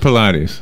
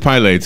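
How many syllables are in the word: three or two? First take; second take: three; two. First: The word is said with three syllables. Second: The word is said with two syllables. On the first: The speaker calls it wrong. "It's not Pilates. I don't see three syllables" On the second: The speaker calls it right. "It is Pilates"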